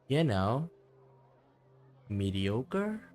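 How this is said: It is said sadly, with a pause and stress. The failure is a painful source of insecurity. The speaker calls it right. "she should feel more and more despondent"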